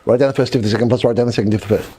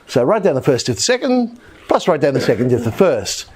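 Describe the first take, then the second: First: The phrase is said quickly, rattled off fast. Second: The phrase is said at a normal, unhurried pace.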